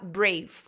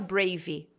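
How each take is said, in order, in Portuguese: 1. Para bem no som do V. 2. Termina com uma vogal extra depois do V. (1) "como se parasse no V" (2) "você não vai falar brave"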